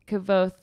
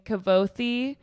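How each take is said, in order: First: The name ends without a final vowel. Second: The name ends with a sounded final vowel. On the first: The speaker calls it right. "he says it's actually Kavoth. The E is silent" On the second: The speaker calls it wrong. "Someone says his name Kavothi"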